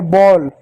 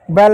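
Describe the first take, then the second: First: "बॉल" with a rounded "aw" vowel; corrected vowel. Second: "बैल" with an open "ai" vowel; wrong vowel. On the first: Teacher correcting the misreading for pupils, "बॉल" with aw vowel. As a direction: say "बॉल" as "bawl", lips rounded. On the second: Teacher naming the misreading to reject, "बैल" with ai vowel. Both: Shown as a demonstration. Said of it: "बैल नहीं बॉल".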